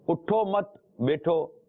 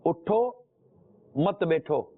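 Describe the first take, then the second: First: उठो मत run together, pause, slow बैठो; pause after मत. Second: उठो raised, pause, then मत बैठो falling; pause after उठो. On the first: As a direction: join उठो to मत, break before बैठो. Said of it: "यानी कि उठो नहीं". (उठो मत पर ठहर कर, फिर बैठो) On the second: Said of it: "पर ना ठहरा जाए". (उठो पर ठहर कर, फिर मत बैठो) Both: Shown as a demonstration.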